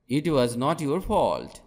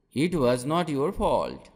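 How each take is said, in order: Both takes have the same delivery.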